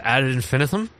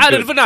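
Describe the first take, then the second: First: It is said in a plain, unaccented way. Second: It is said with a heavy Italian accent.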